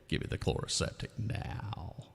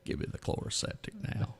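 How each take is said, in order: First: The voice is heard with added echo. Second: The voice is heard without added echo.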